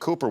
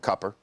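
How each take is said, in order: First: The first vowel is a long 'oo' sound. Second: The first vowel is a short 'uh' sound. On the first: This is the name as it is normally said. "our youngest son is named Cooper" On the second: This is how the family says it at home. "We call him Cupper at home"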